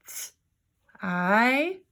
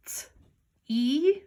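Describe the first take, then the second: First: T, pause, then I as "eye"; sounding out long I. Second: T, pause, then E as "ee"; sounding out long E. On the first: Teacher trying the other way, T and I sounded apart. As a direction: separate T from a held "eye". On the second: Teacher trying a word with long E, T and E apart. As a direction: separate T from a higher, questioning "ee". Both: Shown as a demonstration. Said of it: "let's try it the other way".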